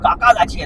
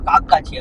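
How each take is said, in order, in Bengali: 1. প্রথম শব্দের শেষে একটা বাড়তি স্বরধ্বনি আছে। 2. প্রথম শব্দের শেষে কোনো স্বরধ্বনি নেই।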